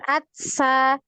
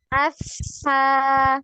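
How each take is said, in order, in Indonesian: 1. Bunyi mirip t yang terhenti ada sebelum s. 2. Bunyi s mengalir lancar tanpa terhenti. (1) "Jangan atsa, bukan atsa" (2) "itu ngalir ya. Asa, seperti itu"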